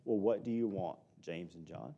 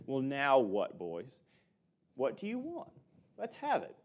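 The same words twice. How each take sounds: First: Softer, gentle and sincere, a calm real question to the disciples. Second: A lightly hammed-up fed-up dad; insincere, impatient. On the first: Retold or imitated. Jesus kindly asking James and John what they want, sincere and soft. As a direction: ask it gently, truly wanting to know. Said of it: "this was not anything but a sincere". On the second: Shown as a demonstration. A tired father brushing off his pestering boys, mock impatient. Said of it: "it was not an insincere".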